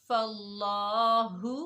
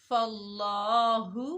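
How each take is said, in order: Both takes have the same delivery.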